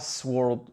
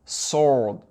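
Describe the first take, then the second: First: A W sound is pronounced after the S. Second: The W sound is left out. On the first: The speaker calls it wrong. "On ne dit pas sword" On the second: The speaker calls it right. "W est ignoré"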